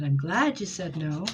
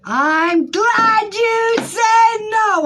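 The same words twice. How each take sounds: First: Said in the usual way. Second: Very high, drawn-out squealing yell; exultant shout. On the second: Real, not acted. Reader hears client's no, shrieking with excitement. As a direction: belt it out slowly, word by word.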